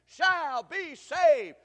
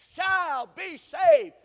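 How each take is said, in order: First: Loud, high, very slow chant; call and response. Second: Even louder, higher, very slow; louder call. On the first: Preacher leading the congregation's reply, loud and slow. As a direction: lead the crowd to answer back. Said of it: "Say that with me". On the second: Preacher urging the church to say it louder. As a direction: push them to answer harder. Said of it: "Say it like you mean it". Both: Shown as a demonstration.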